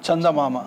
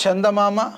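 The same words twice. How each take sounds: First: చందమామ nearer "tsandamama", falling; sound contrast demo. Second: చందమామ with palatal ch, like "chendamama"; sound contrast demo. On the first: Teacher contrasting letters for pupils, చందమామ nearer ts. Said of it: "ఇదేమో చలి". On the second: Teacher showing pupils a letter, చందమామ with palatal ch. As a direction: front the opening of చందమామ to "che". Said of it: "ఇదైతేనేమో చలి అని అంటాము". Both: Shown as a demonstration.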